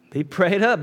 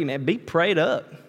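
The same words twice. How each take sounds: First: "Be prayed up" said again louder and higher, leaning on "up"; preacher presses "Be prayed up" home to the congregation, louder and higher; emphatic repeat. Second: Said in the usual way. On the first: Real, not acted. Pastor urging the church to pray, repeating "Be prayed up" louder and higher.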